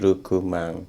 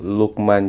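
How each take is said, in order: First: It begins with R and has added vowels. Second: It begins with L and has no added vowels.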